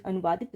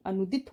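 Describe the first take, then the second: First: अनुवादित with a vaa syllable; wrong form. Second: अनुदित without the vaa syllable; three short beats in अनुदित; corrected form. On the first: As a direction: say अनुवादित as anu-vaa-dit. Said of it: "अनुवादित नहीं". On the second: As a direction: say अनुदित as a-nu-dit. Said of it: "अनुदित होगी". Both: Shown as a demonstration.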